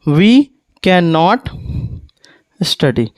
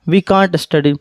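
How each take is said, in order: First: Can and not are said as separate words. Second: Can and not merge into one short word.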